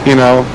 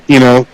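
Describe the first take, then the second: The two takes are said the same way.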